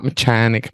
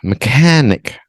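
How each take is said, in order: First: The middle consonant is a ch sound. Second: The middle consonant is a plain k sound. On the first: The speaker calls it wrong. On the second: The speaker calls it right. "the H is silent in the mechanic"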